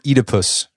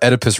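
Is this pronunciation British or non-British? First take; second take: British; non-British. First: It is said in a British pronunciation. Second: It is said in a non-British pronunciation.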